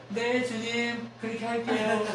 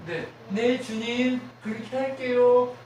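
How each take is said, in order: First: Slow yes. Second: A loud, slow, eager yes to the Lord; eager obedience. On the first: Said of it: "했으면". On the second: Preacher shows the church how to answer God, eager and loud. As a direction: say yes to God with your whole chest. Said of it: "우리의 전쟁의 승리 방식은 뭐예요". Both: Shown as a demonstration.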